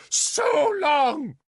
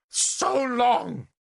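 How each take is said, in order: First: Loud, high ringing shout; crying out. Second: High, startling outburst; sudden interjection. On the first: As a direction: cry it out over the hall. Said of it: "she cried again". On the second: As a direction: burst in out of nowhere. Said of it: "Morgan astonished us all by interjecting". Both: Acted.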